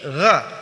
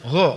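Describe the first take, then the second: First: The sound is made with open lips. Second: The sound is made with rounded, pursed lips. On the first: The speaker calls it right. "tapi gha terbuka" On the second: The speaker calls it wrong. "tidak boleh monyong. Gha enggak boleh"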